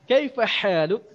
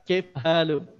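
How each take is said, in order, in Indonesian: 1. Bunyi H terucap dengan jelas. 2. Bunyi H kabur dan tidak jelas. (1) "Bagus bahasanya" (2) "tidak jelas antara huruf H dan huruf huruf H"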